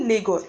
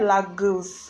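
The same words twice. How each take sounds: First: "Lagos" as LAY-goss; Nigerian Lagos. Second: "Lagos" as lah-GOOS, stretched; mimicked Lah-goose. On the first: Shown as a demonstration. Telling how Nigerians say it, "Lagos" as LAY-goss. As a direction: say "Lagos" with a first syllable like "lay". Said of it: "in Nigeria, we say Lagos". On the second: Mimicking the camp girl's word, "Lagos" as Lah-goose. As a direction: say "Lagos" to rhyme its end with "goose". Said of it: "She said Lagos".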